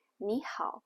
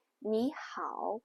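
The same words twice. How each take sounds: First: "你好" rising on "你", "好" short and low; everyday low tone. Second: "你好" with "好" dipping and rising at the end; full third tone. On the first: Teacher showing usual greeting, low final third tone. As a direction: drop "好" low without rising. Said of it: "We usually just say". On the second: Teacher showing textbook greeting, full final third tone. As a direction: draw out "好" down then up. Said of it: "do people normally say". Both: Shown as a demonstration.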